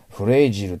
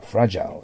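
First: The first vowel sounds like 'ay'. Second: The first vowel sounds like 'a'. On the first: The speaker calls it wrong. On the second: The speaker calls it right.

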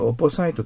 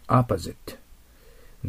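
First: The last syllable sounds like 'site'. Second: The last syllable sounds like 'zit'. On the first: The speaker calls it wrong. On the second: The speaker calls it right.

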